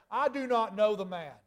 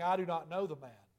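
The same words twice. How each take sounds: First: Higher, louder cursing denial; a forceful, heated I do not know the man. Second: Said in the usual way. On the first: Acted. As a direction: swear it off, angry and cornered. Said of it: "he began to curse and to swear". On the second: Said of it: "he denied it with an oath".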